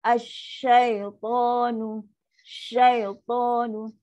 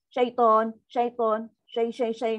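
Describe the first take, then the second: First: "Syaitanu" stretched slowly, voice going down; slow sinking recitation. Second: "Syaitan" cut short, no drop; clipped wrong syaitan. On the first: Teacher models the correct lowered "Syaitanu". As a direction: let "Asyaitanu" descend slowly. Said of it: "mesti turun bawah". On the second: Teacher shows the cut-short "Syaitan" students often say. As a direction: chop "Syai" off quickly. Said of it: "tengok ya tu dah caras". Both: Shown as a demonstration.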